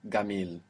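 It begins with a hard G, Egyptian style.

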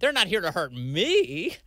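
The word me is strongly emphasized. They are here to hurt someone else.

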